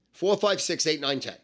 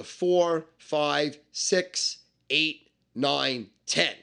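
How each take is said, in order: First: "four" to "ten" run together in one quick string; rattled off. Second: Each number from "four" to "ten" set apart by pauses; one by one. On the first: Recapping the dice numbers for a beginner, "four" through "ten" rattled off. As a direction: rattle off "four, five, six, eight, nine, ten" without pauses. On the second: Explaining dice to a beginner, "four" through "ten" spaced one by one. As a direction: count out "four, five, six, eight, nine, ten" deliberately. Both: Shown as a demonstration.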